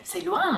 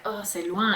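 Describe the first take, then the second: First: High, bright c'est loin; thrilled it's far; eager New Zealander take; excited. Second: Flat weary c'est loin; mild French reluctance; reluctant French groan. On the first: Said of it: "How exciting". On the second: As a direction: put off by the distance. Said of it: "But I'm like". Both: Retold or imitated.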